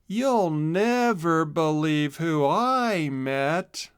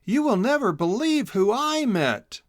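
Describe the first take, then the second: First: Very slow, dull and deflated; no excitement. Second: High, bright burst of news, voice jumping up; can't wait to share the secret; excited. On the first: Chisel repeating his news to Boodle, deflated. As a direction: say it like the wind's gone out of you. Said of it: "but this time with no excitement". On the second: Hedgehog Chisel bursting to tell his friend Boodle, excited. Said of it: "excitedly told her". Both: A narrator's reading.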